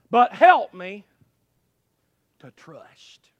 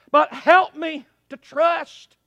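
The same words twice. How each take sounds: First: Loud start, then a long pause and a whisper; plea sinking to whisper. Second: Loud plea held up to the end; full-voiced plea. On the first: Acted. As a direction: let the plea drop away to a whisper. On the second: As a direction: plead out loud without dropping away. Same plea kept at full voice.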